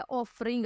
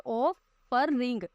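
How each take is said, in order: First: Said in the usual way. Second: offering slowly split as ऑ, फर, ring; syllable by syllable. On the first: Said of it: "अब इसमें कैसे बोलते हैं?". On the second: Shown as a demonstration. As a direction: sound out offering in three separate beats. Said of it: "तीन syllable है".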